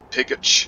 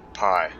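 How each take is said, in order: First: The name is said with two syllables. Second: The name is said as one syllable. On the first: The speaker calls it wrong. "People would always try to pronounce it as Pigich" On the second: The speaker calls it right. "That's clearly the word pi"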